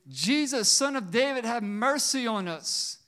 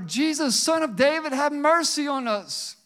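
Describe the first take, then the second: First: It is said at a quieter volume. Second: It is said at a louder volume.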